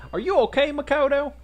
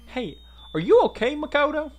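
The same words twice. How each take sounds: First: Worried Southern belle, pitched way up. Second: Put-on high, loud first try at a Southern girl; concerned, high-pitched tentative Southern accent; searching for Southern voice. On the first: Acted. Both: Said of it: "There's my southern voice".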